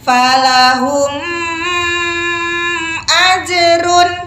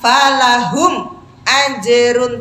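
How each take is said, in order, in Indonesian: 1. Huruf m ditahan panjang dengan bunyi sengau yang kuat. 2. Huruf m dipotong tiba-tiba. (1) "nggak boleh juga ... gunnahnya berlebihan" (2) "Jadi tidak disentak. ... tidak"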